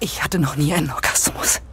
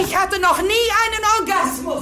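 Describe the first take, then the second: First: It is said quietly. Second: It is said loudly.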